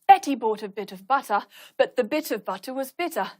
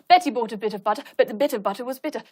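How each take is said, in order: First: It is slower, with loud exaggerated breaths between phrases. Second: It is very fast, with only quick short breaths. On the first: "I'll exaggerate my breathing to show you" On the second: "when it's very, very fast, you just have to take a very, very quick breath"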